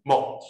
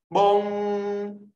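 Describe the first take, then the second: First: 梦 brief with a k stop; short tone. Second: 梦 high, loud and drawn out; long tone. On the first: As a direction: cut 梦 off at once. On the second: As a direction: hold 梦 on a high level note. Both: Shown as a demonstration. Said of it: "长音、短音哦".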